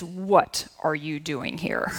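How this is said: It sounds stern and scolding, like a mom.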